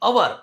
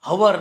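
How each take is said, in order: First: The word begins with a vowel sound. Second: The word begins with an h sound. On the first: The speaker calls it right. "આનો ઉચ્ચાર અવર થાય છે" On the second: The speaker calls it wrong. "હવર નહીં"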